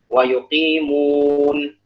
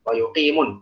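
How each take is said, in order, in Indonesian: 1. Vokal sebelum n terakhir dibaca panjang. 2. Vokal sebelum n terakhir dibaca pendek. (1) "tetap dibaca mad" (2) "Enggak boleh, kalau begitu enggak ada madnya"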